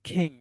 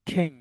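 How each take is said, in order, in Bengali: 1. k-এর মধ্যে জোরালো শ্বাসের ঝলক আছে। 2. k-এর মধ্যে জোরালো শ্বাসের ঝলক আছে।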